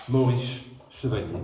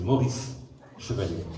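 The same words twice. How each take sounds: First: "[name]" said the English way, with an English R and "Chevalo" endings; anglicized pronunciation. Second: "[name]" with a French uvular R and "Chevalier" ending in -lié; French pronunciation. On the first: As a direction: read "[name]" with an English tongue, like a Brit. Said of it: "Pas la peine de prendre un accent pour dire Maurice". ("[name]" prononcé à l'anglaise, avec un R anglais) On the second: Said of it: "Je sais, non, c'est [name]". ("[name]" prononcé à la française, R grasseyé)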